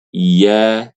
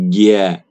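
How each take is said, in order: First: The syllable starts with a y sound. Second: The syllable starts with a j sound. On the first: The speaker calls it right. "Yang benar" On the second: The speaker calls it wrong. "bukan "ya" tapi "ja""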